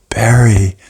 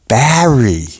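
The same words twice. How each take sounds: First: The name is said in a plain accent. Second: The name is said in a Brooklyn accent. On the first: The speaker calls it wrong. "No, she didn't say it like that" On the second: The speaker calls it right. "She's from Brooklyn"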